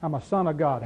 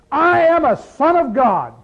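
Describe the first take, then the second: First: Softer and lower, offhand and knowing; low wry aside. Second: Loud, high and slow, a proud claim; proud declaration. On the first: Pastor voicing a believer's resume, low and wry. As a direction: drop it low like a private joke. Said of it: "Next resume you fill out". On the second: Pastor voicing a believer's resume, loud and proud. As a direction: announce it like the top line of a resume. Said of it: "You've got a resume written here". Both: Pretend.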